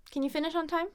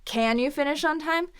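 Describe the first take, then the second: First: Quick reduced CAN, higher voice; unemphasized can. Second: CAN punched loud with full vowel, rising end; condescending question leaning on CAN; emphasized can. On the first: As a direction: skim over CAN, light neutral question. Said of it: "not emphasizing". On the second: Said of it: "only emphasize". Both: Shown as a demonstration.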